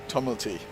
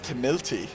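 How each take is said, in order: First: The middle vowel sounds like 'uh' as in cut. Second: The middle vowel sounds like 'ih' as in Timothy. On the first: This is how the surname is actually said. The speaker calls it right. "instead of Tumulty" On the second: This was a first misreading of the surname. The speaker calls it wrong. "I pronounced it as Tumilty"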